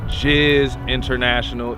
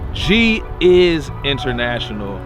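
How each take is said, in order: First: The name starts with the single sound 'Jizz'. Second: The name starts with the separate sounds 'G is'. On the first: The speaker calls it wrong. "not Jizz International" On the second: The speaker calls it right. "G is International is my brand"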